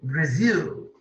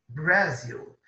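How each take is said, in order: First: The stress is on the second syllable. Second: The stress is on the first syllable. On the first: The speaker calls it right. "A força está no zil" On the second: The speaker calls it wrong. "não é Brasil que nós falamos"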